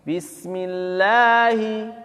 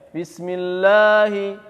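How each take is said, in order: First: The lah syllable sounds light and thin. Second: The lah syllable sounds heavy and thick. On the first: The speaker calls it right. "ringan ya" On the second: The speaker calls it wrong. "Jangan sampai"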